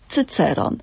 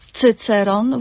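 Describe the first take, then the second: First: The stress is on the second syllable. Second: The stress is on the first syllable. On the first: "albo na drugą sylabę od końca" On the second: "możemy akcentować albo na trzecią sylabę"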